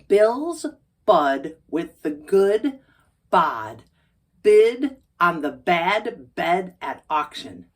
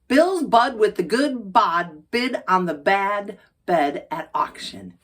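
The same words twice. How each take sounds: First: The sentence is said at a slower pace. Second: The sentence is said at a fast pace.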